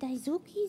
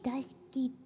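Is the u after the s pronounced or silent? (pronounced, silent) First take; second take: pronounced; silent. First: The u after the s is clearly pronounced. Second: The u after the s is left silent. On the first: The speaker calls it wrong. "Nicht Daisuki" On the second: The speaker calls it right. "Besser meinte sie, Daisuki des. / Und das U nicht mitsprechen"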